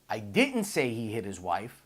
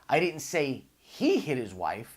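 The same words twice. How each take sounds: First: The word "didn't" carries the stress. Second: The word "he" carries the stress.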